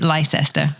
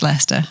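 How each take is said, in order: First: The name is pronounced the American way. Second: The name is pronounced the British way. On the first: The speaker calls it wrong. "Americans mostly pronounce it Leicester, but it's not" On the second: The speaker calls it right. "It's Leicester"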